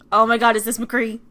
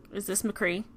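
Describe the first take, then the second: First: Loud, thrilled question; excited exclamation. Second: Said in the usual way. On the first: Acted. Player spotting McCree, loud and excited. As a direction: blurt it out loudly in starstruck surprise.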